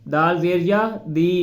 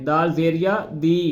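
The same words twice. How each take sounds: The two takes are said the same way.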